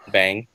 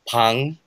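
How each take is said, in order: First: The name begins with a voiced B sound. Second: The name begins with an unvoiced P sound. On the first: This is the familiar English nickname. "I like to call him Bang" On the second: This is the original Korean pronunciation. "in Korean it's Pang, Pang if you pronounce it right"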